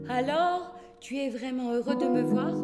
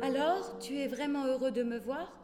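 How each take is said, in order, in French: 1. Ça sonne joueur et séducteur. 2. Ça sonne ému et un peu gêné. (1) "Elle lui lance un vétéran sourire séducteur" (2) "Rayonnante, touchée, embarrassée par une émotion dont elle n'a pas l'habitude"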